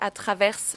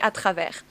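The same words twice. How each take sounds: First: The final S of travers is pronounced. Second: The final S of travers is silent. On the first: The speaker calls it wrong. "you must not say the letter S at the end of the word" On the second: The speaker calls it right. "So you have to say à travers"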